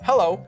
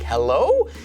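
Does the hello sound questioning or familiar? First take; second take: familiar; questioning. First: It sounds familiar and recognizing. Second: It sounds uncertain and questioning. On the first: The caller is recognized. "When you know who it is ... you'd say, oh, hello, like that" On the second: The caller is unknown. "when you don't know who's calling. It's like saying, hey, hello? Like that"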